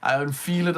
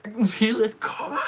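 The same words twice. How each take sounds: First: Said in the usual way. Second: Excited. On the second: Real, not acted. Repeats the phrase, building excitement.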